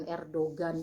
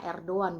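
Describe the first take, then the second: First: "Erdogan" with the g clearly sounded; mistaken hard G. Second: "Erdogan" as Er-do-an, g silent; Turkish pronunciation. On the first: Vlogger showing the reading to avoid, hard g in "Erdogan". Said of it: "bukan Erdogan ya". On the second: Vlogger showing how Turks say it, silent g in "Erdogan". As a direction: say "Erdogan" the Turkish way, without any g. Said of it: "Kalau orang Turkinya ngomongnya". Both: Shown as a demonstration.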